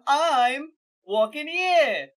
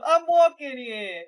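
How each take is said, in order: First: "I'm" held long, then a loud "walking here"; different inflection. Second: "walking here" loud, higher and stretched out; different inflection. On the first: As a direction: stretch every word of "I'm walking here" very slowly and loudly. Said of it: "different inflections each time". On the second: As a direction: belt out a slow "walking here". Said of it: "different inflections of". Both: Acted.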